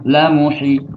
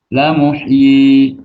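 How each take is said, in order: First: The final vowel is cut short. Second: The final vowel is held long. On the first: The speaker calls it wrong. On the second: The speaker calls it right. "maka dibaca panjang"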